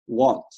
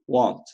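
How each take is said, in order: First: It is said as one short contracted word. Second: The same.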